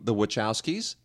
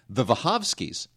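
First: The name has an Americanized pronunciation. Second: The name has a Polish-style pronunciation. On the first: This is the common local way of saying it. The speaker calls it wrong. "We call them the Wachowskis" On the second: This is the original family way of saying it. The speaker calls it right. "No. The Wachowskis. Seriously. He says it's pronounced Wachowski"

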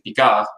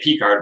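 First: The name is pronounced with French sounds. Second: The name is pronounced with English sounds. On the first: The speaker calls it right. "when it's actually Picard" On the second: The speaker calls it wrong. "you would say Picard"

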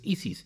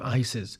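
First: The name is said with Spanish pronunciation. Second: The name is said with English pronunciation. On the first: "she's Spanish and her name is Isis" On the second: "I would probably pronounce her name Isis"

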